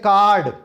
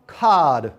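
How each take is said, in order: First: The r is sounded after the vowel. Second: The r is not sounded after the vowel. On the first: "pronunciation उसकी ठीक है, accent ठीक नहीं है" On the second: "उसकी pronunciation भी ठीक है और उसका एक्सेंट भी ठीक है"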